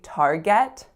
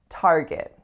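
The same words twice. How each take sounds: First: The second syllable has a full vowel, like get. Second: The second syllable has a weak schwa vowel. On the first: The speaker calls it wrong. "we don't say Target. It's not like I'm gonna get that" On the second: The speaker calls it right. "It's a schwa, right?"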